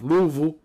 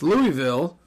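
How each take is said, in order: First: The name is mumbled with syllables swallowed. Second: The name is said clearly with every syllable.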